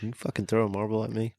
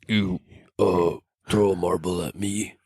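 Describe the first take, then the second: First: It is said in a normal voice. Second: It is said in a put-on spooky voice.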